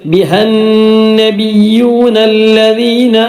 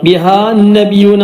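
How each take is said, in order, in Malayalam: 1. biha യുടെ അവസാനത്തെ സ്വരം ഹ്രസ്വമാണ്. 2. biha യുടെ അവസാനത്തെ സ്വരം നീണ്ടതാണ്. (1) "അങ്ങനെയാണ് ഉള്ളത്" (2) "ബിഹാൻ നബി എന്ന് പറയരുത്"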